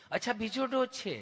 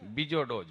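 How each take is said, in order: First: Higher, sweetly patient nurse; mock-affectionate nurse voice; lovingly asking nurse. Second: Low answer after long stuck hums; imitated stuttering patient; stammering friend. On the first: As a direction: echo the answer tenderly, pitched up. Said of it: "તમે કેટલું પ્રેમથી પૂછો છો". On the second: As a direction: struggle to start, then say it low. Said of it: "જીભ જલાય, સોંટે અટકે".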